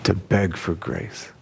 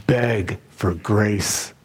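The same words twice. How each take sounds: First: Soft echo. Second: Slow stress. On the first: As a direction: repeat it softer, slow and lower. Preacher echoes the phrase softly. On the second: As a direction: beg for grace, drawn out very slowly. Preacher stresses the key phrase. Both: Acted.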